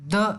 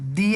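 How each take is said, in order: First: The word ends in a short uh vowel. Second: The word ends in a long ee vowel. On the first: The next word starts with a consonant sound. "Consonant sound तब आपको द को द ऐसा ही pronounce करना है" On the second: The next word starts with a vowel sound. "वावेल ध्वनि है तो आपको द का उच्चारण दी ऐसा करना है"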